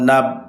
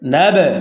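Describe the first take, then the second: First: The final b is stopped with no echo. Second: The final b is released with an echoing bounce. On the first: The speaker calls it wrong. "এখন যদি বলি নুন বা জবর নাব, তাহলে সঠিক উচ্চারণ হবে না।" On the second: The speaker calls it right. "সঠিক উচ্চারণ নুন বা জবর নাব"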